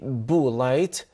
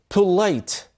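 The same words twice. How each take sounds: First: The p is said without a puff of air. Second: The p is said with a puff of air. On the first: The speaker calls it wrong. "We don't say polite" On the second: The speaker calls it right. "There is air comes out of your mouth"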